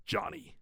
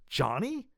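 First: "Johnny" high and softer, as an answer; name as statement. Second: "Johnny" rising sharply into a question; questioning name. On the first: Son naming himself to his father, "Johnny" high and soft. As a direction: state "Johnny" softly, pitched high, without questioning. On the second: Father astonished to see his son, "Johnny" rising. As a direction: query "Johnny" with a high rising end. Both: Acted.

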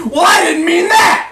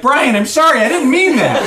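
First: High, loud furious yell; acted enraged shout; angry outburst. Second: High, pleading apology; acted urgent remorse; remorseful. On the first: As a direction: explode at them as if smashing a glass. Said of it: "smashed his whiskey glass against the wall". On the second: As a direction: plead for forgiveness, beside yourself. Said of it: "just beside himself with remorse". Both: A narrator's reading.

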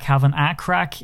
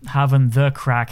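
First: "a" said as a full, open vowel in "Having a crack"; stress on A. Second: "the" said slowly and distinctly in "Having the crack"; stress on THE. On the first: Contrasting it with the Irish phrase, stress on "a". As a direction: lean on the word "a". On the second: Correcting the co-host's phrase, stress on "the". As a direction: lean on the word "the". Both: Shown as a demonstration. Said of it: "is something completely different".

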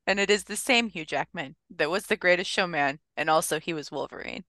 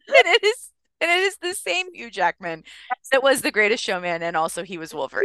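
First: Said in the usual way. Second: Can't hold it together while reading; breaking character giggling. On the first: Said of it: "Let me compose myself". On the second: Real, not acted. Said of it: "I can't keep a straight face".

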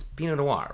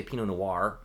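First: "Noir" ending in a soft, light R. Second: "Noir" ending in a full hard R. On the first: Correcting the coworker's word, "Noir" with a soft R. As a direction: say "Noir" as nwahr with the R barely there. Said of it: "it's a soft R". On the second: Showing what not to say, "Noir" with a hard R. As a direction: say "Noir" as nwar, R fully sounded. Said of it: "You don't say Pinot Noir". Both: Shown as a demonstration.

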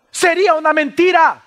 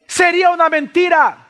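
The two takes are said the same way.

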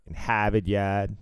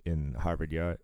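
First: Harvard Yard said as hah-vid yahd, r dropped; thick Boston r-less Harvard Yard; Boston accent. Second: Said in the usual way. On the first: Shown as a demonstration. Boston guy showing off his own accent, thick Boston. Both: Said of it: "We don't all talk like a fucking cartoon".

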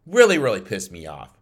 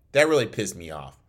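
First: "Really, really" hit louder, with real irritation; louder repeat. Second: Said in the usual way. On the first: Real, not acted. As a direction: push the repeat harder, really annoyed. Repeats the line with more force.

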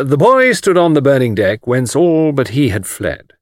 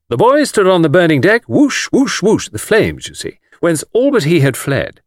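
First: Measured, slightly raised recitation; reciting. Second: Louder, higher hammed-up recital; recitation with action. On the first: Acted. Anthony reciting for Miss Taylor, declaiming verse. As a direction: recite it carefully, slowing on the second line. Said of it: "I might recite". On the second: Anthony showing off for Miss Taylor, theatrical recitation. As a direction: act out the verse with whooshing flames. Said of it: "I can do that bit with action".

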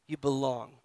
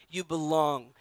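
The two takes are said the same way.

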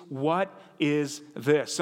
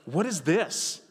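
First: What is this? spelled out slowly and evenly; deliberate, slowed-down gloss; slow translation. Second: What is this? with a curious rise on is; mild mock bewilderment; puzzled question. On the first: Shown as a demonstration. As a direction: lay out the meaning word by word, slow. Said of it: "the Hebrew for manna literally means". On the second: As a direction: sound baffled at the strange stuff. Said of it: "but, like".

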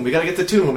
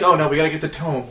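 First: TOME said with an "oo", like "tomb"; imitated mispronunciation. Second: Said in the usual way. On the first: Retelling a friend's game chatter, tome mispronounced as tomb. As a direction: say tomb where tome is meant. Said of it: "he pronounced tome ... as tomb".

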